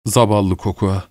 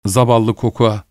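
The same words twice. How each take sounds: First: "Zavallı Kokua" said lower and softer, tenderly; comforting his wife, he says "Zavallı Kokua" softly and gently. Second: Said in the usual way. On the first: A narrator's reading. ("Zavallı Kokua" alçak ve yumuşak, şefkatle) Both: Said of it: "dedi tekrar".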